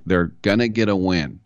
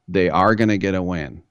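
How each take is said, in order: First: Said in the usual way. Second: Are split out and punched; stress on are. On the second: Retold or imitated. Host insists the Panthers will win, stressing are.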